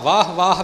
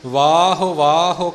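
First: Each word ends with no final vowel. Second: Each word ends with a short u sound. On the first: The speaker calls it wrong. "ਇਹਨੂੰ ਆਪਾਂ ਵਾਹ ਵਾਹ ਵੀ ਨਹੀਂ ਕਹਿਣਾ" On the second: The speaker calls it right. "ਉਚਾਰਨ ਜਿਵੇਂ ਆਪ ਜੀ ਨੇ ਸਰਵਣ ਕੀਤਾ ਹੈ"

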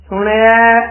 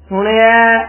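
Both takes have the same delivery.

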